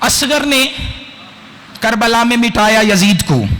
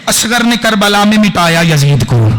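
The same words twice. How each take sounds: First: The line is delivered slowly and calmly. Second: The line is delivered with force and energy.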